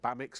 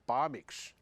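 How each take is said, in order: First: The name is said the usual English way. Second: The name is said the Swiss way.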